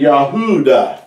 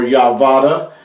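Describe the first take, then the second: First: The middle sound is an oo vowel. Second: The middle sound is a v consonant. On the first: The speaker calls it right. "but it's been Yahuda" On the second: The speaker calls it wrong. "or Yahvada"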